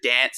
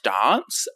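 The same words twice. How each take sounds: First: It is said in a broad Australian accent. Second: It is said in a posh Australian accent. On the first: "instead of dance" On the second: "it's dance"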